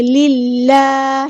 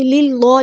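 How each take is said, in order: First: للہ with a thin light lam; للہ, lam kept thin and light. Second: للہ with a thick heavy lam; للہ, lam made thick, the wrong way. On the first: Teacher models the right way, thin lam. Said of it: "وہ باریک پڑھیں گے". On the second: Teacher shows students the error, heavy lam. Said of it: "للہ نہیں پڑھیں گے". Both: Shown as a demonstration.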